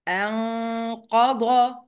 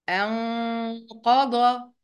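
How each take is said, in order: No difference in how they are said.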